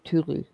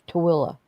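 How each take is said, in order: First: The name is said as spelled, as Tulu. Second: The name is said the local way, as Tooele. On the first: The speaker calls it wrong. "instead of Tulu" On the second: The speaker calls it right. "it's pronounced Tooele"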